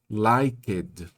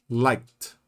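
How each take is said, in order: First: Every letter is sounded, adding extra syllables. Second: It is said as one short syllable. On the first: The speaker calls it wrong. "ele vai querer dizer liked, liked. Todas as letras, todas as sílabas" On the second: The speaker calls it right. "Liked, ó, liked"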